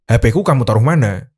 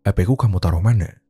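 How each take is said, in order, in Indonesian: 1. Pertanyaannya ditanyakan dengan suara marah. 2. Pertanyaannya ditanyakan dengan suara tenang.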